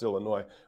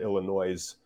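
First: The word ends without an S sound. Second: The word ends with an S sound. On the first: The speaker calls it right. "it's pronounced Illinois. They don't say the S" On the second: The speaker calls it wrong. "especially from out of state, to pronounce it Illinois, which is just hilarious"

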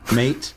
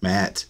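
First: The name is said in an Australian accent. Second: The name is said in a plain accent.

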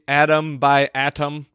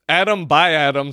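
First: The T is crisp and strongly pronounced. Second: The T is soft and sounds like D. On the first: "over-enunciate that T like you guys" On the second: "sounds like a very reflective piece"

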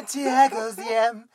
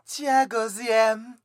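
Both takes have the same delivery.

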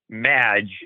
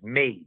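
First: The vowel is a short a. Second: The vowel is a long a. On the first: It sounds like a nod to the word magic. The speaker calls it wrong. "Pete initially called them Madge as if it was a nod to magic" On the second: It means someone who performs magic. The speaker calls it right. "Long A"

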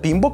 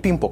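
First: The last syllable starts with a b sound. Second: The last syllable starts with a p sound. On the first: The speaker calls it right. "а «Пимбок» она называется" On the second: The speaker calls it wrong. "не «Пимпок» она называется"

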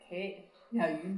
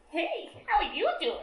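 First: It is said in the speaker's normal voice. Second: It is said in a put-on character voice.

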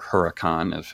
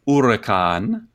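First: The name is said with an American accent. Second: The name is said with an Italian-sounding accent.

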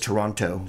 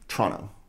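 First: The second t sound is clearly pronounced. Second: The second t sound is dropped entirely. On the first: The speaker calls it wrong. "No one says Toronto" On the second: The speaker calls it right. "There's no T in it. It's T-R-O-N-N-O"

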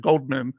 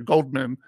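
First: The name is said with a d sound. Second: The name is said with a d sound.

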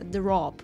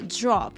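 First: The dr is plain, in a Russian accent. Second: The dr has a buzzing zh-like sound, American-style. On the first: The speaker calls it wrong. "Мы говорим просто drop" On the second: The speaker calls it right. "в американском акценте... соединение шершавое... как будто бы вставляется ж-ж-ж"

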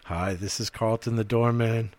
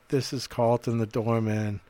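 First: The voice is less nasal. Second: The voice is more nasal.

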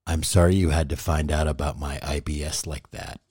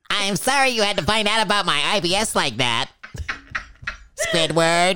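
First: It is said in the speaker's normal voice. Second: It is said in a SpongeBob impression voice.

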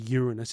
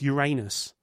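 First: It is said without sounding like 'your anus'. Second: It is said sounding like 'your anus'. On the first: The speaker calls it wrong. "So he started calling it Uranus. So you got bloody idiots calling it Uranus. It's not bloody Uranus" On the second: The speaker calls it right. "it's Uranus"

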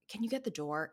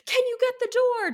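First: It is said quietly and calmly. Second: It is said in a frazzled, agitated way.

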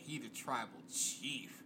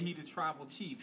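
First: It is said in a dreamy, admiring tone. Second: It is said in a plain, matter-of-fact tone. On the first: She is attracted to him. "She looking at him one thing" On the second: He respects him as a wrestler. "I'm looking at him one way"

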